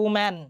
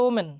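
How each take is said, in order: First: "ওম্যান" with a big open "a" in "man"; wide-mouthed woman. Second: "ওমেন" with a narrow "e", ending like "men"; mispronounced woman. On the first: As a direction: widen the mouth on the end of "ওম্যান". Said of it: "মুখটা একটু চওড়া করতে হবে". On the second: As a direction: keep the last vowel of "ওমেন" small, as a wrong example. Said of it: "হবে না". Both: Shown as a demonstration.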